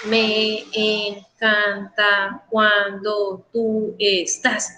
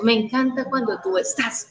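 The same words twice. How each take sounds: First: "Me encanta cuando tú estás" drawn out slowly in separate syllables. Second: Said in the usual way. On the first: Shown as a demonstration. Teacher counting a verse for students, "Me encanta cuando tú estás" broken into slow syllables. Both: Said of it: "Contarle las sílabas".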